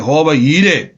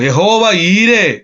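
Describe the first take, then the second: First: Said in the usual way. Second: Slow, drawn-out proclamation of യഹോവ ഈരേ; slow preacher's declaration; solemn declaration. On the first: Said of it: "Elkanah പറഞ്ഞാ മതിയായിരുന്നു". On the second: Shown as a demonstration. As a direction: proclaim it like a prophecy, stretching each word.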